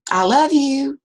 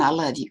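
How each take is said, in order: First: High, loud warm call. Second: Lower, softer returning echo; the echo answering the grandfather. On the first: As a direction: call it out to the hills. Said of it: "And he said". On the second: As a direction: let it come back faint. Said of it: "came back". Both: Retold or imitated.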